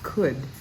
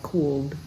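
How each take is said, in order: First: No L sound is heard in the word. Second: An L sound is heard near the end. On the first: The speaker calls it right. "leave out the L and leave out the O" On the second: The speaker calls it wrong. "it's so tempting to say something like cooled, but that would be wrong"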